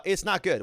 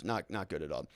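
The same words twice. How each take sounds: First: Said in the usual way. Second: Low, soft, heavy repeat; quiet grim verdict. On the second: Real, not acted. Streamer repeats his grim verdict, low and quiet. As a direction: let it sink, drop the voice.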